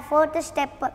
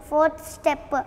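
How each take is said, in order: No difference in how they are said.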